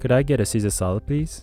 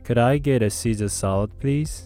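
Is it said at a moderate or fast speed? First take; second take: fast; moderate. First: It is said linked at a faster speed. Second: It is said linked at moderate speed.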